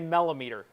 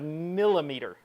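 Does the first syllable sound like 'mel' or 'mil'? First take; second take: mel; mil. First: The first syllable sounds like 'mel'. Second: The first syllable sounds like 'mil'. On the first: "The mella" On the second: "the milla"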